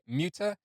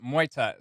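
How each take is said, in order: First: The name begins with a 'moo' sound. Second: The name begins with a 'moy' sound. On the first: The speaker calls it wrong. "I was mispronouncing the band name, where I was saying previously Muta" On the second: The speaker calls it right. "where it's pronounced Moita"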